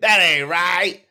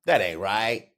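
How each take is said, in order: First: High, loud, slowed Chris Rock squeal; outraged comic Chris Rock voice; Chris Rock impression. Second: Said in the usual way. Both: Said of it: "like Chris Rock said".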